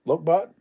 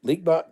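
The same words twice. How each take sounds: First: "Lokbot" said LOKE-bot, rising like a guess; first try at name. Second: "Leakbot" said LEEK-bot, a new guess at the vowel; second try at name. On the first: Reading a Dutch viewer's name aloud, said "Lokbot" as LOKE-bot. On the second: Retrying a Dutch viewer's name, now saying "Leakbot" as LEEK-bot. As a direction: switch to "Leakbot" with a long EE. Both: Shown as a demonstration. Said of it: "I know I'm butchering that".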